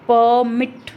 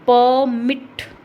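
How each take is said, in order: First: The stress is on the first syllable. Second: The same.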